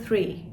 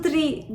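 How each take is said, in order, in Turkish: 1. Yumuşak th sesiyle başlıyor. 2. Düz t sesiyle başlıyor. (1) "Orada bir H harfi var" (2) "değil"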